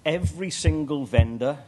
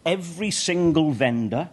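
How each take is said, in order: Both takes have the same delivery.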